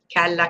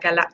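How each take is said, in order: First: It is said slowly and carefully. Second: It is said quickly at a faster rhythm. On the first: "on le dit quelques fois lentement" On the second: "puis on accélère le rythme"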